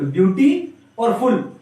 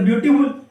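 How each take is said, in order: First: "ब्यूटी" and "फुल" as two separate chunks; "ब्यूटी", then "फुल", each set apart; split into parts. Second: Said in the usual way. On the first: Shown as a demonstration. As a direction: divide the word into "ब्यूटी" और "फुल". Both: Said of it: "double syllable का word है".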